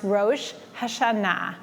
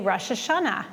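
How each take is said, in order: First: It is said with a Hebrew-style pronunciation. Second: It is said with an English-style pronunciation. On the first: "in Hebrew, it's pronounced" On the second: "In English, many people say"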